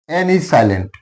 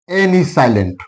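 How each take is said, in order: The two takes are said the same way.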